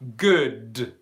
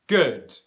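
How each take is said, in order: First: The final D is released with a strong burst. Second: The final D releases only a little air. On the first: The speaker calls it wrong. "I do not say good" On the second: The speaker calls it right. "where there's just a little bit of airflow coming out"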